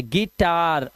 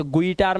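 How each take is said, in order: First: गिटार starting "gi", the u silent; I sound. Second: गुइटार with the u voiced, "gu-ee-taar"; wrong reading. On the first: Teacher models guitar correctly for students, I sound. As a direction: say गिटार as "gi-taar". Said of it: "लेकिन आवाज देखो ई". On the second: Teacher warns students off misreading guitar, wrong reading. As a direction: misread it गुइटार, sounding both vowels. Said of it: "अभी से गुइटार मत करना". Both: Shown as a demonstration.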